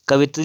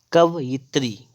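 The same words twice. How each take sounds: First: "कवित्री" as ka-vi-tri; wrong form. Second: "कवयित्री" as ka-va-yi-tri; careful correct form. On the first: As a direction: say "कवित्री" with plain -vi-. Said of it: "लिखा हुआ है तो होता है". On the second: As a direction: separate out -va-yi- in "कवयित्री". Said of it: "ये होता है इसका शुद्ध". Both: Shown as a demonstration.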